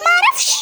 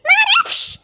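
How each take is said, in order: First: High, rising cry of I don't know; panicked shout. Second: Even higher, rising panicked cry; panicked shout, pitched higher. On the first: A kid panicking over the dirty diaper, shouting. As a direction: blurt it out in a panic. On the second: A kid still panicking over the diaper, shouting higher. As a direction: push the panic further on the repeat. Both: Acted.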